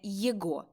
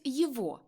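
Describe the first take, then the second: First: The middle consonant is a hard g sound. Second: The middle consonant is a v sound. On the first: The speaker calls it wrong. "а не «єго»" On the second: The speaker calls it right. "В інтелігентній мові вимовляють «єво»"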